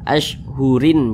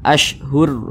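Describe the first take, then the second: First: The word ends with an added -in sound. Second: The word ends on a bare r sound. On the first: The reading carries on past the stop. The speaker calls it wrong. "Jangan dibaca ashhurin" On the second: The reader stops at the end of the word. The speaker calls it right. "huruf ro kita sukunkan sehingga dibaca ashhur"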